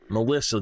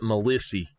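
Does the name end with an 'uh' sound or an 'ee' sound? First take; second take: uh; ee. First: The name ends with an 'uh' sound. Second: The name ends with an 'ee' sound. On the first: This is the usual way to say the name. "they did not pronounce the name Melissa" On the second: This is how the family said the name. "They pronounced it Melissy"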